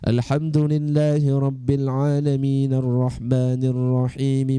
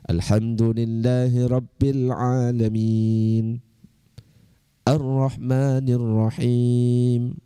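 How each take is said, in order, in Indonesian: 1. Ayat-ayat itu tersambung tanpa berhenti. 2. Setiap ayat diikuti oleh berhenti yang jelas. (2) "afdolnya dipotong-potong"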